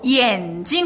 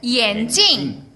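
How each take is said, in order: First: The second syllable has a light neutral tone. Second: The second syllable has a falling fourth tone. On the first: It means eye. "경성으로 眼镜 하면 뭐죠? 눈이 돼요" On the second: It means glasses. "사성으로 하면 안경"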